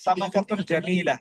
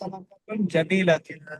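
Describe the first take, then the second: First: The last word ends without the -tun ending. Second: The last word ends with the full -tun ending. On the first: This is how it is normally said in speech. "এমনি আরবরা উচ্চারণ করে সামাকাতুন জামিলা" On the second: The full form is said to make it clear. "অথবা"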